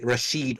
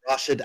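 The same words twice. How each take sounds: First: The stress is on the second syllable. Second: The stress is on the first syllable. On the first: "what you would say" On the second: "where I'm from"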